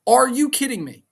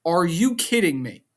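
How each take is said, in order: First: Louder, higher, fed-up repeat; exasperated outburst. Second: Said in the usual way. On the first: Real, not acted. Fan ranting to viewers about the twist, exasperated shout. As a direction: throw the question up in disbelief.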